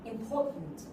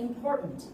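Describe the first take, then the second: First: It is said in a British accent. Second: It is said in an American accent. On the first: "They don't speak R sound" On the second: "when it comes to the R sound right before T, we also have the small pause"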